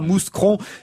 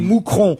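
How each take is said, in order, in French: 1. Le son S se prononce dans le nom. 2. Le son S ne se prononce pas dans le nom. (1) "On ne dit pas mouscron" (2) "dont on ne prononce pas le S"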